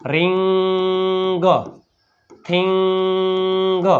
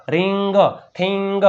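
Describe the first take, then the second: First: રિંગ, થિંગ each with ING held long and level; drawn-out blend. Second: Said in the usual way. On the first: Shown as a demonstration. Teacher blending sounds for pupils, રિંગ and થિંગ stretched long. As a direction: stretch રિંગ and થિંગ very slowly before the final G. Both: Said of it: "ભેગું".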